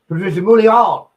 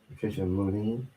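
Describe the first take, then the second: First: The surname is said with a French-style sound. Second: The surname is said with a plain English sound. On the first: "I used to say like it, she was from France" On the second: "I'm gonna give it a shot"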